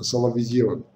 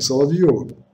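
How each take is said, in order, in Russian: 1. Гласная перед 'vym' произносится как 'ye'. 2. Гласная перед 'vym' произносится как 'yo'. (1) "Потому что там буквы «ё» нет" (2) "Не Соловьевым"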